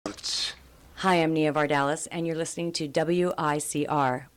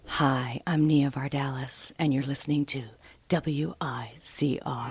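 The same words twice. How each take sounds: First: It is said in her normal speaking voice. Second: It is said in a put-on radio announcer voice.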